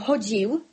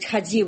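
First: First vowel is o, then a soft dz. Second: First vowel is a, then a soft dz. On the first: "А мы дзекаем, але гаворым" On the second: "І ліцвіны, якія гавораць"

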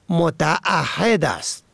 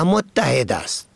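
First: The word is said as mota'ahed. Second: The word is said as mottahed. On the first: The speaker calls it right. "متعهد است نه متحد است" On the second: The speaker calls it wrong. "کلمه متعهد را متحد می خوانند"

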